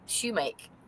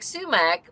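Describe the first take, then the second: First: The word begins with an sh sound. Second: The word begins with an s sound. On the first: It is how people said it growing up. "Everyone said it shumake" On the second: It follows the spelling. "It looks like sumac"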